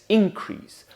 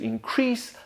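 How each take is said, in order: First: The stress is on the first syllable. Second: The stress is on the second syllable. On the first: It is used as a noun. "Nouns are stressed on their first syllable" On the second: It is used as a verb. "verbs on their second"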